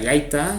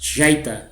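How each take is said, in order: First: The first consonant is a plain, non-buzzing sound. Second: The first consonant is a buzzing 'zh'-like sound. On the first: "a veces se pronuncia yaita" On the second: "como los argentinos pronuncian la Y"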